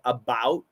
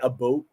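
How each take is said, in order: First: It is said with an American pronunciation. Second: It is said with a Canadian pronunciation.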